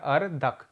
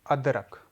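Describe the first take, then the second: First: अर्दक read as written, r before d; teacher reads the misspelled word अर्दक, with r before d, as written; wrong word read out. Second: अदरक said with d before r, ad-rak; teacher says the corrected word अदरक, ad-rak, with d before r. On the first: Teacher reads out the jumbled word अर्दक, with r before d. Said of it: "इसका उच्चारण करिए तो लिखा हुआ है". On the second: Teacher gives the right word अदरक, said ad-rak. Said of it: "अब ये हो गया". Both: Shown as a demonstration.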